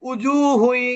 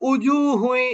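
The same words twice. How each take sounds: The two takes are said the same way.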